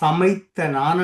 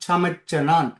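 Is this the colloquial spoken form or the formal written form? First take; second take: formal; colloquial. First: A fuller formal form with a 'th' sound. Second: A run-together colloquial form with a 'ch' sound. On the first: This is how it is written. "எழுதும் பொழுது சமைத்த நான் என்று எழுதுவோம்" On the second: This is how it is said in everyday speech. "நாங்கள் பேசும் பொழுது ... சமைச்சனான் என்று தான் சொல்லுவோம்"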